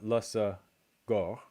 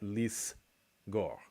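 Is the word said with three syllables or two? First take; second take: three; two. First: It has three syllables, starting with la. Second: It has two syllables, starting with lis. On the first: The speaker calls it wrong. "you can't have lasa gor" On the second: The speaker calls it right. "and so you get lis gor"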